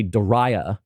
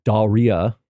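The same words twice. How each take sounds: First: Daria said as duh-RYE-uh; second-syllable emphasis. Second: Daria said as DAR-ee-uh, with "ee" in the middle; closer pronunciation. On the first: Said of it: "put the emphasis on the second syllable". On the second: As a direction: say Daria with an open "dar" and a light "ee-uh". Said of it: "I kind of forced it into saying". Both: Shown as a demonstration.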